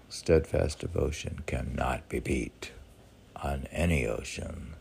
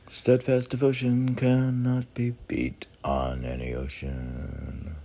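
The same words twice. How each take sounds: First: Said in the usual way. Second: Proclaiming a saying. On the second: Pretend. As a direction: pronounce the aphorism grandly. Reading out a meditation saying.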